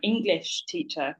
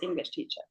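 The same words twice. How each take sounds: First: The stress is on the word English. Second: The stress is on the word teacher. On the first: The speaker calls it wrong. "if you if you do put the stress on English" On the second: The speaker calls it right. "what I think you're trying to say"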